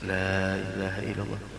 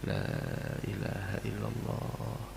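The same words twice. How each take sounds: First: It is said in a loud, pushing voice. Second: It is said in a soft whisper. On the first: The dying person is being pressured to recite. The speaker calls it wrong. "jangan dipaksa dengan mengucapkan ayo baca lah" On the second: The dying person is gently reminded to recite. The speaker calls it right. "sebelah bisiki"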